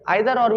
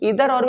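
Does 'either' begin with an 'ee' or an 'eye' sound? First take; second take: eye; ee. First: Either begins with an eye sound. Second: Either begins with an ee sound. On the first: "आइदर और भी बोल सकते हैं" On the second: "ईदर और भी बोल सकते हैं"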